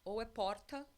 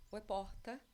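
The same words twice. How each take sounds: The two takes are said the same way.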